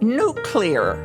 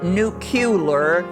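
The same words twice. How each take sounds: First: It is said as nu-clear, without an extra vowel. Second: It is said as nu-cu-lar, with an extra vowel. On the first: The speaker calls it right. "there is a proper way to say a word" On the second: The speaker calls it wrong. "Don't put an extra U in it. It's not nuclear"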